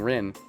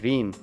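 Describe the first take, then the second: First: The name is said with English pronunciation. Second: The name is said with Japanese pronunciation. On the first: "I've been pronouncing Rin in the English way" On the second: "Rin in Japanese would be Rin"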